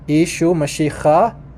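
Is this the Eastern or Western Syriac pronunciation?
Eastern. It is said in the Eastern Syriac pronunciation. "So in in Eastern, it's pronounced"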